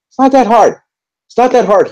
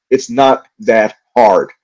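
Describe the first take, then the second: First: High, pitched-up disbelief; squeaky exasperated outburst. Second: Slow, leaning on "not"; slow emphatic point. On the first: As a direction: throw the words up high in frustration. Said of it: "I think I'm just angry right now". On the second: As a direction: spell out "It's not that hard." word by word. Slower repeat of the complaint. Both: Real, not acted.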